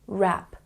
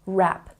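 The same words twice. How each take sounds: First: The word starts directly with the R sound. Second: The same.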